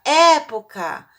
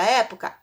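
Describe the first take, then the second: First: "Época" called loud and high with a long open E; loud, high call on "Época", falling after the first syllable; calling out the word. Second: Said in the usual way. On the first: Shown as a demonstration. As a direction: stretch and punch the first E of "Época". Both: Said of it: "Vamos chamar a palavra época?".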